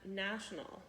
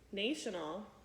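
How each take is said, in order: First: The first vowel is short, as in cat. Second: The first vowel is long, as in nation. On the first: The speaker calls it right. "it is a national ... to a short sound" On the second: The speaker calls it wrong. "Instead of using national, ... from a long sound"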